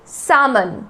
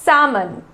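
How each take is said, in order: The two takes are said the same way.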